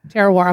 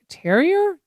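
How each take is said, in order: First: The name ends with a 'wahr' sound. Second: The name ends with an 'ee-er' sound. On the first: The speaker calls it right. "not even close" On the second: The speaker calls it wrong. "Am I saying it right?"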